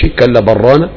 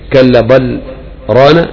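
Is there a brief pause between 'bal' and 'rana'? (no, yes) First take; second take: no; yes. First: There is no pause after 'bal'. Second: There is a brief pause after 'bal'. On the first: "ممكن ما يسكتش" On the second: "ممكن هذا يسكت"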